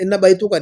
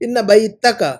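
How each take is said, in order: First: The vowel after the t is u. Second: The vowel after the t is a. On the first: The speaker calls it wrong. "इन बैतुका नहीं" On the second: The speaker calls it right. "इन की वजह से मंसूब"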